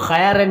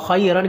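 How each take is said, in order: First: A sound in the word is drawn out. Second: No sound in the word is lengthened. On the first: The speaker calls it wrong. "इसको मजबूर खैरन नहीं पढ़ना" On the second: The speaker calls it right. "खैरन के अंदर कोई हरफ लंबा नहीं"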